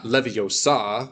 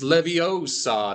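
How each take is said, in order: First: "Leviosa" wrongly accented on SA; misplaced stress. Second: "Leviosa" with the accent on O; corrective stress. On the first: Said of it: "not Leviosa". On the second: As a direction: stress it levi-O-sa, as the right version of "Leviosa". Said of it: "The accent is on the first one". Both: Shown as a demonstration.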